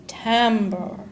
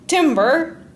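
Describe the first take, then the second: First: It sounds unlike the word for wood. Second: It sounds like the word for wood. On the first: The speaker calls it right. "but timbre" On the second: The speaker calls it wrong. "that word's not pronounced timber, like trees falling in a forest"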